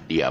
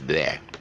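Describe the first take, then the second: First: It begins with a d sound, like dia. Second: It begins with a soft th sound. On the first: The speaker calls it wrong. "we Malaysians, you know, the D H E R is pronounced as dia" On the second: The speaker calls it right. "actually it's wrong. It's pronounced as there"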